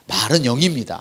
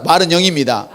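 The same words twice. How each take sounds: First: Said in the usual way. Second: Call and response. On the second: Shown as a demonstration. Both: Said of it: "한번 따라".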